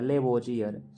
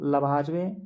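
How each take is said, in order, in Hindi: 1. यह नाम 'lebojiyar' जैसा बोला जाता है। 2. यह नाम 'lavajve' जैसा बोला जाता है। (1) "कहीं के बुक में देखिए लेबोजियर लिखा होगा" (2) "रसायन के पिता हम लोग लवाजवे"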